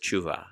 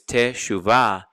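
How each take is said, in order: First: The first vowel is dropped, run together. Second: The first vowel is clearly pronounced. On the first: "it gets slammed together as tshuva" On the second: "So it's teshuvah"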